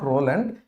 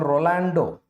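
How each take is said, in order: First: The name ends on a consonant sound. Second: The name ends on a final vowel sound. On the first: The speaker calls it wrong. "not Roland" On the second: The speaker calls it right. "It is called Rolando"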